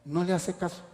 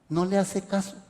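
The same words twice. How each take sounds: The two takes are said the same way.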